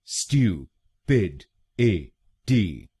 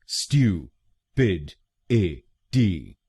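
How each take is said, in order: Both takes have the same delivery.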